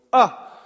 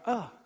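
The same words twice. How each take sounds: First: Short, high call into a cave; shouted "ah". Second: Short, high, soft imitated echo. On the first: Preacher showing congregation how caves echo, shouted "ah". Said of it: "where you can go". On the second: Preacher imitating the cave's answer, faint echoed "ah". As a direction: softly voice the call bouncing back. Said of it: "then it'll come back". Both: Shown as a demonstration.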